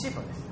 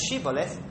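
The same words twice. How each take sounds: First: "Sibboleth" opening on a plain s sound; "Sibboleth", first consonant as in "sip". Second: "Shibboleth" opening on a clear sh sound; "Shibboleth", first consonant as in "ship". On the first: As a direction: say "Sibboleth" with S in place of SH. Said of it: "They could say Sibboleth". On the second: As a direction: say "Shibboleth" with a hushing SH at the start. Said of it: "they have a special accent". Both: Shown as a demonstration.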